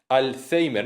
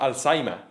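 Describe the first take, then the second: First: It is pronounced with Spanish sounds, as spelled. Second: It is pronounced with foreign sounds. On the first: The word is treated as adapted into Spanish. The speaker calls it right. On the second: The word is treated as an unadapted foreign word. The speaker calls it wrong.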